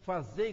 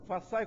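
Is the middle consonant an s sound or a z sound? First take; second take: z sound; s sound. First: The middle consonant is a z sound. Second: The middle consonant is an s sound. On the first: The speaker calls it right. "aprendi agora, fazei, não é façai" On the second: The speaker calls it wrong. "falei errado"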